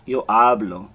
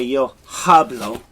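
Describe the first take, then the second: First: "hablo" with a silent H, starting on the vowel "ablo"; correct pronunciation. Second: "hablo" with the H sounded, a breathy English h; wrong pronunciation. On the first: Teacher giving students the right way. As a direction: drop the H in "hablo" entirely. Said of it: "you say yo hablo". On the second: Teacher showing students the wrong H. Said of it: "So you don't say yo hablo". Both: Shown as a demonstration.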